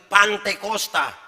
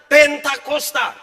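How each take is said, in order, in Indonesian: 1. Suku pertama 'pan', lalu 'te'. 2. Suku pertama 'pen', lalu 'ta'. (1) "Bukan Pantekosta. Itu salah" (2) "Pentakosta, itu yang benar"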